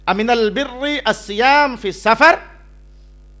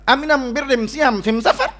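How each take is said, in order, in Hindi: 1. इस आर्टिकल को l की आवाज़ से बोला जाता है। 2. इस आर्टिकल को m की आवाज़ से बोला जाता है। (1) "कुरैश की लुगत में यह जुमला यूं था" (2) "उसका लहजा यूं था"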